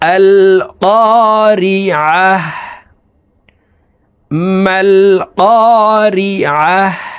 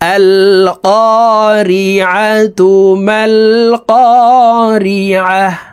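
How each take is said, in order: First: The first word ends in -h, then pauses. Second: The first word ends in -tu and flows on. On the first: The reader stops at the end of the verse. "যদি এখানে থামি ... দেখুন এইভাবে পড়ব" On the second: The two verses are read together. "যদি মিলিয়ে পড়ি তাহলে এইভাবে পড়ব"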